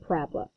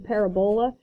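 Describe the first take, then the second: First: It is said in the usual everyday way. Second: It is sounded out letter by letter. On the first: The speaker calls it right. "but we pronounce it parabola" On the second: The speaker calls it wrong. "if I were to actually pronounce this phonetically"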